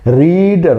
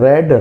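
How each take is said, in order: First: The vowel is long, as in 'reed'. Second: The vowel is short, as in 'red'. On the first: It is the base form of the verb. "ये रीड नहीं है" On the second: It is the past form of the verb. "ये verb का third form होता है, तो इसका उच्चारण चेंज हो जाता है"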